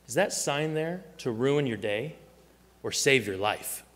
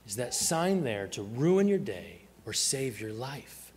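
First: Dead serious. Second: Slow repeat, leaning on "ruin" with a drawn-out rise; dead serious, emphatic. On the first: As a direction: put it to a friend in all seriousness. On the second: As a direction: stretch out "ruin", then land gravely on "save your life". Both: Retold or imitated. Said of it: "looks at him dead serious and he says".

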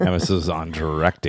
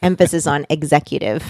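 First: "directing" picked out in mock echo; stress on directing. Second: "executive" picked out with deliberate weight; stress on executive. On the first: Teasing the executive director back, stressing "directing". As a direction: lean on the word "directing", parroting the correction. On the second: Real, not acted. Correcting the co-host on the job title, stressing "executive". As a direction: lean on the word "executive".

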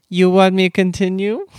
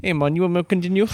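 First: Put-on loud, higher Asian-accented offer, rising at the end. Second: Put-on fast, higher Jamaican accent, rising at the end. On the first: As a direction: mistakenly do the Jamaican woman in an Asian accent. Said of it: "I just went to an Asian accent". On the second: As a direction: redo the beach masseuse in a Jamaican accent. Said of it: "in a Jamaican accent".

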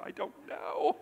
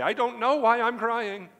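First: Very high, squeaky tearful imitation; mock crying. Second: Loud, high hammed-up wail; mock crying. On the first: Daughter answering her puzzled dad, high-pitched mock crying. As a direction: play a girl helplessly wailing, voice way up high. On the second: Preacher mimicking ladies who can't explain their tears, loud mock wailing. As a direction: imitate a tearful woman wailing at full volume. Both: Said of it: "the next minute they're crying".

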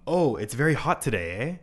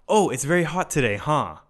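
First: Tag the end with a light, friendly "eh?"; friendly Canadian "eh?" tag. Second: Casual American "huh?" tag. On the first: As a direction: finish "hot today, eh?" with "eh?" as a casual tag question. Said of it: "in Canada, they say, like". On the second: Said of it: "but we would say". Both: Shown as a demonstration.

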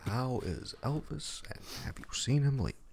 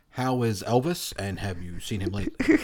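First: Echoed question. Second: Larry King impression. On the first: Retold or imitated. Repeats the interview question. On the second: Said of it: "my worst Larry King impression".

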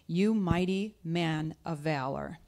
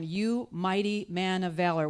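First: "you mighty man of valor" drawn out slowly, rising at "valor"; slow proclamation. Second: "You mighty man of valor" declared with weight, falling firmly; bold proclamation. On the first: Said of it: "the angel of the Lord appeared to him and said to him". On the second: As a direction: announce "You mighty man of valor" as a prophecy, firm fall. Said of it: "this angel of the Lord says to him". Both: Retold or imitated.

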